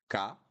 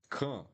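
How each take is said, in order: First: Crisp open "ka"; syllable drill. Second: "kan" with a nasal vowel; nasal syllable drill. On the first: Teacher drilling "ka" before the nasal form. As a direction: sound out "ka" cleanly. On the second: Teacher showing the tilde vowel in "kan". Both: Shown as a demonstration. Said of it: "C A with this weird accent".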